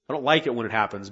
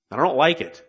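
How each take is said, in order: First: Said in the usual way. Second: Louder, pointed I don't like it, stressing like; grudging admission. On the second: Real, not acted. Preacher confessing to church he dislikes correction, grudging and pointed. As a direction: admit it with a grudging edge.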